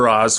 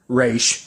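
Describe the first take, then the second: First: The name ends with a 'z' sound. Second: The name ends with an 'sh' sound. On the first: "whichever one you want to pronounce it" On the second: "whichever one you want to pronounce it"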